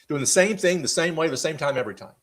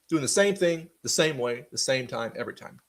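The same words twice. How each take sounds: First: It is said at a normal pace. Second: It is said slightly more slowly.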